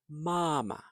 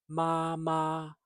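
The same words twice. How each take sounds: First: The second syllable is short and light. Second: The second syllable is high and level. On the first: "the second syllable can be light, more like mama" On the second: "So it's not mama, although that's fine too"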